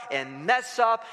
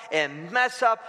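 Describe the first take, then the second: No difference in how they are said.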